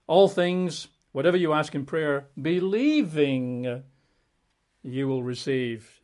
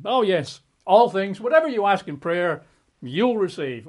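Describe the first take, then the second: First: "believing" drawn out slowly, leaned on as the condition; slow down and weigh "believing"; stress on believing. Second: Gushing, higher and louder, eager; mock delight at the easy promise. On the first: Shown as a demonstration. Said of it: "but there was a caveat". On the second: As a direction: read it like a wish come true, thrilled. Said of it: "the way you and I would prefer it".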